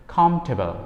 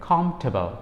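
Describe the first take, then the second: The two takes are said the same way.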